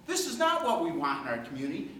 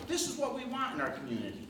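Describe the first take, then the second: First: Firm rebuttal leaning on "not"; stress on NOT. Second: Quick, higher, imagined voters' endorsement; lightly quoted approval, quick and high; voiced approval. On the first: Real, not acted. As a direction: hit the word "not" to contradict. Rebuts the approval just voiced. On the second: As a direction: rattle it off as others' approval, higher. Voicing the voters' supposed approval.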